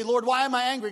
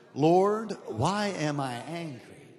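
First: Said in the usual way. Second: Loud sincere prayer. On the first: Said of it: "you say". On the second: Shown as a demonstration. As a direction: Lord called out loud, then a slow lower why am I angry. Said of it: "One, two, three".

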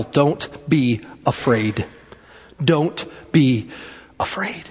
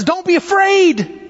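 First: Low and slow, word by word; measured, hushed emphasis; slow, deliberate. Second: High, urgent call across the water; raised preacher's shout, drawn out. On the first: Real, not acted. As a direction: pause between the words and let each land. Slow repeat of the key statement. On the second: Retold or imitated. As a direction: call it out high, stretching the words. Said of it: "as he shouts out".

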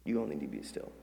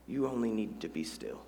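First: Much softer and lower, letting it sink in; soft repeat. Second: Said in the usual way. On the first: Shown as a demonstration. Pastor repeating the line softly to the church. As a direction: hush it down so it lands. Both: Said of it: "Maybe some of y'all need to hear that".

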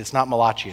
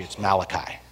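First: "Malachi" said Italian-style as muh-LAH-chee; mispronounced Malachi. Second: "Malachi" said as MAL-uh-kye; correct Malachi. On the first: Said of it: "I said, "It's not Malachi". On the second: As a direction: say "Malachi" with first-syllable stress, ending in kye. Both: Retold or imitated.

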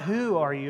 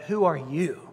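First: WHO stressed, lower ARE YOU after it. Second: YOU punched and drawn out at the end; stress on YOU. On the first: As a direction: lean on WHO, let YOU drop. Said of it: "the emphasis ... is not". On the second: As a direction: lean hard on YOU, as a challenge. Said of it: "the emphasis that the priests and Levites are asking". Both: Shown as a demonstration.

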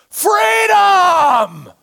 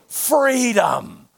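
First: Much higher, loud shouted cry; full-throated battle cry; defiant yell. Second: Just recall the cry lightly; understated echo of the shout; quoted yell, held back. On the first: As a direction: hurl it out like Braveheart defying his killers. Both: Retold or imitated. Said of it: "They can't stop him from yelling".

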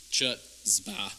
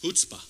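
First: "chutzpah" read as English, with ch as in church; mispronounced chutzpah. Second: "chutzpah" with an H sound, "hoots-pah"; correct chutzpah pronunciation. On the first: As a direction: say "chutzpah" slowly with an English CH, like "chut-spah". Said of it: "It's not pronounced chutzpah". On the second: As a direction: open "chutzpah" on H, not on English CH. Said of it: "It's pronounced chutzpah". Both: Shown as a demonstration.

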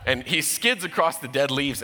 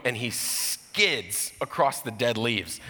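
First: With a laugh in the voice; amused, quicker retelling. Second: Drawn out, very slow; slowed storyteller suspense; slow dramatic telling. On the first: Real, not acted. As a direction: let the laugh come through. Same line retold, laughing. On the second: Acted. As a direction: stretch each word as the dog slides. Dramatic retelling of dog skidding.

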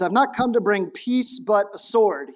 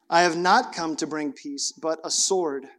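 First: "not" punched and rising, "sword" falling hard; emphatic preaching of the verse; emphatic quote. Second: "not" and "sword" stressed in a grave, low reading; solemn reading. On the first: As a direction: hit "not" hard to shock the hearers. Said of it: "First thing he says". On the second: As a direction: read it gravely, letting "sword" fall. First solemn reading of the verse. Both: Acted.

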